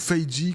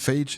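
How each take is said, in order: First: The name is pronounced the English way. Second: The name is pronounced the French way. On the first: This is how commenters say it should be said. "comme euh, certains à chaque fois me reprennent dans les commentaires" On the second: This is how the speaker usually says it. "je le prononce à la française"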